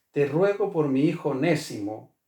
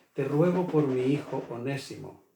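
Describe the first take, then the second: Both takes have the same delivery.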